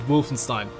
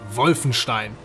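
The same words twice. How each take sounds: First: The name is said with English pronunciation. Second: The name is said with German pronunciation. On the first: The speaker calls it wrong. "I can't keep pronouncing it Wolfenstein" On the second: The speaker calls it right. "It just sounds more authentic when you pronounce it the German way"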